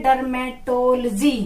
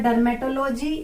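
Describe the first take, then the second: First: Dermatology slowly as derma-TOL-jee; corrected pronunciation. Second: Dermatology as dermato-LOH-jee; mispronounced dermatology. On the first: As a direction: draw out Dermatology, joining the L to "to". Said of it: "इसको बोलेंगे it is called". (Dermatology को धीरे से डर्मेटोल-जी) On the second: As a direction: keep "logy" a separate unit in dermatology. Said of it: "नहीं, इसको बोलेंगे". (dermatology को डर्मेटो-लोजी तोड़कर) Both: Shown as a demonstration.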